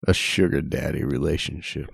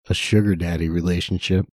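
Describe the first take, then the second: First: It is said in a creepy, sexual voice. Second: It is said in a normal voice.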